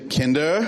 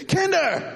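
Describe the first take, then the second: First: Said in the usual way. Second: Much higher, sharp yell of Kinder!; sharp alarm call. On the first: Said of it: "Dann gibt's". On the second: Retold or imitated. Dad calling kids urgently, high sharp call. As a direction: snap the name out as a warning. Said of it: "Und dann gibt's".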